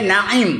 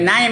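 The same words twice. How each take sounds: First: It is said with a throaty middle consonant. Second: It is said without a throaty middle consonant. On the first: The speaker calls it right. "Nun Ain Ya Mim" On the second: The speaker calls it wrong. "Bukan Naim ya"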